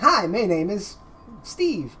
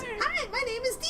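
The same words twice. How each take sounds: First: It is said in a normal voice. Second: It is said in a higher voice.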